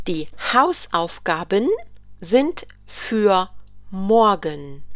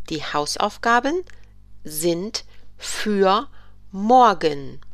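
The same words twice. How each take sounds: First: Slow, careful classroom reading; slow model sentence. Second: Repeated in separate pieces; chunked repeat. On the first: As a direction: stretch the words for learners. German teacher models a sentence. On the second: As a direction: break it into parts. German teacher repeats the sentence. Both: Shown as a demonstration.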